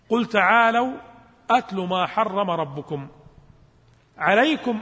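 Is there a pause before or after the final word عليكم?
before. There is a pause just before the last word. The last word begins a new sentence meaning 'it is binding on you'. The speaker calls it wrong. "بعضهم يقرأها هكذا ليس كذلك؟ ... أنت الآن جعلت عليكم هي بداية إيش الجملة"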